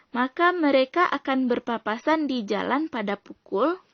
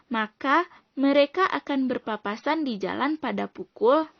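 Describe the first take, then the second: The two takes are said the same way.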